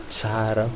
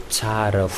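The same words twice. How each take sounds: Both takes have the same delivery.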